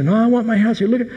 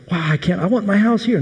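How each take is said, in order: First: Even more excited. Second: A high, eager cry of delight; excited spies. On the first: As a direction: insist on it, now thrilled beyond words. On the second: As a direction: gush like you've just found your dream home. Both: Retold or imitated. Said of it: "and they were so excited".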